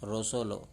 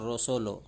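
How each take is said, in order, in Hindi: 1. स्वर 'o' जैसे सुनाई देते हैं। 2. स्वर 'o' जैसे सुनाई देते हैं।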